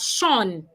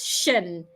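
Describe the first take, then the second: First: The suffix sounds like 'shawn' with an open vowel. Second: The suffix sounds like 'shun' with a short vowel. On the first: The speaker calls it wrong. "a lot of people pronounce them as Sean" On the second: The speaker calls it right. "feel free to pronounce S I O N as shun"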